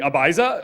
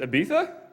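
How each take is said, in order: First: It is said the way Americans say it. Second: It is said the non-American, original way. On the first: "us Americans would pronounce it as" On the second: "the correct pronunciation is"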